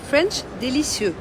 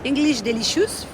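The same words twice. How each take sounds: First: "délicieux" said the French way, day-lee-syeu; slow French "délicieux"; French pronunciation. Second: "delicious" said the English way, de-LISH-us; slow English "delicious"; English pronunciation. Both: Shown as a demonstration.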